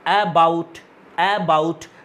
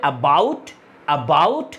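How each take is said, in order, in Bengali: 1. জোর পড়ে প্রথম সিলেবলে। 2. জোর পড়ে দ্বিতীয় সিলেবলে। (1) "তাহলে তুমি বলবে দাদা অ্যাতে জোর পড়ছে" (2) "দেখো বাউটে জোর পড়ছে"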